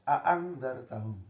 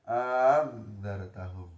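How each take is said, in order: First: Both glottal stops are pronounced clearly. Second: The second glottal stop becomes a long vowel. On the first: "hamzahnya dibaca jelas" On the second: "Hamzah yang kedua diganti alif"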